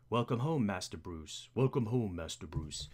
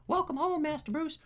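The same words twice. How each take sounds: First: Low butler voice, dropping softer on the name; Alfred. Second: Very high, squeaky butler voice; Alfred. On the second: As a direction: try a silly high-pitched butler. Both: Acted. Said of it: "we need a voice for Alfred".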